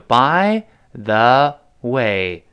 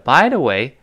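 First: The phrase is said slowly, with a full the. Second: The phrase is said quickly, with the the reduced.

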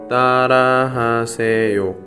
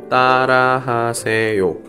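The two takes are said the same way.

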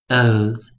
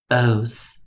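First: The final s sound is voiced, a buzzing z. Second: The final s sound is voiceless, a hissing s. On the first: "或者在有声跟浊音的时候，我们念os os os" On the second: "OSE 我们就发音为os os os"

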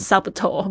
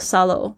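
First: A b sound is pronounced in the middle. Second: No b sound is heard in the middle. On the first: The speaker calls it wrong. "大家不要念成subtle, 不要，千万不要哦" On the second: The speaker calls it right. "这个b 是不发音的哦"

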